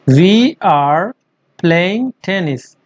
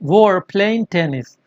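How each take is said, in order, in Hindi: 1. दोनों शब्द 'we are' पूरे बोले जाते हैं। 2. 'We are' जल्दी में जोड़कर एक अक्षर में बोला जाता है।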